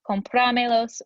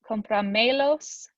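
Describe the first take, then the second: First: The stress falls on the word's usual syllable. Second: The stress falls on a different, unusual syllable. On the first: The speaker calls it right. "it's going to be compramelos" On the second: The speaker calls it wrong. "it sounds weird"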